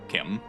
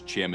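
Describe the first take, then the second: First: It begins with a hard k sound. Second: It begins with a ch sound, like chimney. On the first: The speaker calls it right. "the way he wants it pronounced" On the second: The speaker calls it wrong. "someone said it was Chim as in chimney"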